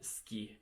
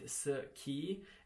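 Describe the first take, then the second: First: The phrase is squeezed into one syllable. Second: The phrase is said in full with two syllables. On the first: "you could just say ce que and ski" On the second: "instead of pronouncing the full word"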